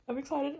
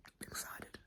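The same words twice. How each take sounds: First: I'm excited said higher with a lift on excited. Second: Breathy hushed I'm excited; whispered excitement. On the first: To viewers, openly excited and higher. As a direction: let the excitement break out, higher. Repeated aloud after whisper. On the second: To viewers, hushed excitement whisper. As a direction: whisper it as a secret thrill. Whispered then repeated aloud. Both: Real, not acted.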